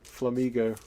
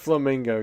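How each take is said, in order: First: No n sound comes before the g. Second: An n sound comes before the g. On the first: "You don't have to say Flamigo" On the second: "Just leave the N in there. Just call it Flamingo"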